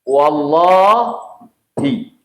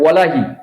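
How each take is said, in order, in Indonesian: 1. Bunyi 'l' itu dobel dan ditahan. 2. Bunyi 'l' itu tunggal dan pendek. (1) "Wallahi ya" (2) "Kita buang alif lamnya. Itu sumpahnya tidak tercapai"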